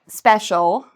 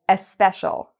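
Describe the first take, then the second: First: The word begins directly with the s sound. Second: An extra vowel sound comes before the s.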